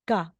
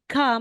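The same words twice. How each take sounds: First: The k is released without a puff of air. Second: The k is released with a puff of air. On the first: "magiging ka or ga ... hindi na po siya aspirated" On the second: "aside na si ka"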